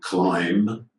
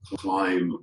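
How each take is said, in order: First: A B sound is pronounced at the end. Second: The final B sound is left silent. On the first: The speaker calls it wrong. "but not climb" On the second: The speaker calls it right. "It's silent"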